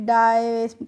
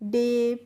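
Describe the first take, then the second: First: The vowel sounds like 'eye'. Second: The vowel sounds like 'ay' in 'hay'. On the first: The speaker calls it wrong. "डाय ... करके pronunciation को नहीं करना है" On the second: The speaker calls it right. "कैसे करेंगे बच्चों? डे"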